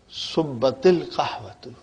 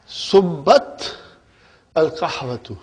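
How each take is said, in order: First: An i vowel links the first word to the next. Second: The words are joined without an i linking vowel.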